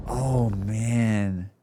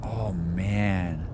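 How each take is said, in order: Both takes have the same delivery.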